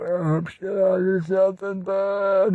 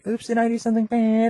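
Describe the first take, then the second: First: It is said in an old man's voice. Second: It is said in an ordinary, natural voice. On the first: "when they're an old man" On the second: "and normal"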